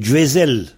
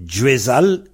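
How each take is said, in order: First: "Djuezel" with è in the last syllable; a turned to è. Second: "Djuezal" with an open a in the last syllable; original a vowel. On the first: Teacher showing the changed form, "Djuezel" with final -el. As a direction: end "Djuezel" in -el rather than -al. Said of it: "comme Al est devenu L". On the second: Teacher giving the older form, "Djuezal" with final -al. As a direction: keep "Djuezal" ending in -al. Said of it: "est devenu Djuezel". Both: Shown as a demonstration.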